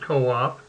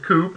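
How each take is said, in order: First: The word is said as two syllables. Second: The word is said as one syllable. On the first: The speaker calls it right. "I called it co-op" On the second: The speaker calls it wrong. "I didn't pronounce it coop"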